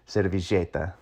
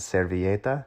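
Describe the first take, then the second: First: It has the Argentine 'sh'-like sound. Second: It has the standard Spanish 'y' sound.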